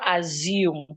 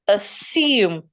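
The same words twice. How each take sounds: First: The s is not a plain s sound. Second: The s is a plain s sound. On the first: The speaker calls it wrong. "It is not assume" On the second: The speaker calls it right. "The S remains a S. Assume, as in snake"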